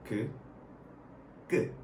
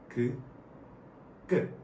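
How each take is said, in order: No difference in how they are said.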